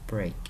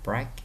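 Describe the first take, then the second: First: The vowel is an E sound. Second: The vowel is not an E sound. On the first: The speaker calls it right. "Nó là E, nó là break" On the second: The speaker calls it wrong. "Nó không phải là break nha bạn"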